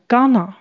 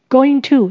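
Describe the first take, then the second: First: The words are run together and shortened. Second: Both words are said fully and separately. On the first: "在口语上常常会念成gonna" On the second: "be 动词加going to 这是未来式"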